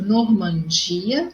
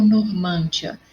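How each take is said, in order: First: "Normandia" with a long stressed di, norman-DI-a. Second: "Normândia" stressed on the middle, nor-MÂN-dia; stress on MAN. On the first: Teacher contrasting two words for pupils, "Normandia" stressed on di. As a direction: stretch the di in "Normandia". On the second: Teacher contrasting two words for pupils, "Normândia" stressed on mân. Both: Shown as a demonstration. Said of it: "Olha a diferença dessa palavra".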